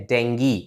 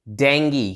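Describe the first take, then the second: First: The word ends with an 'ee' sound. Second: The same.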